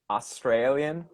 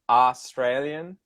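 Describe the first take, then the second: First: The first syllable has a full vowel. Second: The first syllable has a full vowel.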